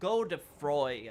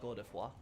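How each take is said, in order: First: The name is read with English sounds. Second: The name is said with French sounds. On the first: The speaker calls it wrong. "when I first saw the term in English, I was like, oh, um, Godefroy" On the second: The speaker calls it right. "But apparently, it's more like Godefroy"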